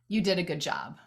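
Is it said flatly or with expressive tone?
flatly. It is said flatly, without added tone.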